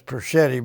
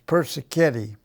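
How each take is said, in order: First: The name is shortened to three syllables. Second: The name is said in full with four syllables. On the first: This is how the family says it. "We pronounce it as Perschetti" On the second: This is the original form of the name. "but it's Persichetti"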